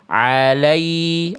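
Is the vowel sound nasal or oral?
oral. The vowel is clear with no nasal sound. The speaker calls it right. "harusnya alai"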